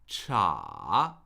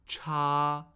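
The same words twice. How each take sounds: First: The pitch falls and then rises. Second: The pitch stays high and level. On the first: "Third tone" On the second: "Cha, first tone"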